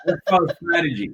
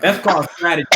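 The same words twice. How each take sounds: First: Fast, laughing through it; laughing repeat. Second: Said in the usual way. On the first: Real, not acted. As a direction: rush it out while cracking up.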